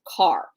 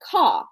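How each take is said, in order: First: Said in a standard American accent, with the r. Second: Said in a Southern accent, without the r. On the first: "A standard American accent is car" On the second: "if you are a Southern woman of, of high caliber, you're going to say caw"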